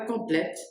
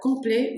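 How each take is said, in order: First: The final T sound is pronounced. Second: The final T sound is silent. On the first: The speaker calls it wrong. "c'est pas complète" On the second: The speaker calls it right. "Vous prononcez pas le T parce qu'il n'y a pas de E après le T"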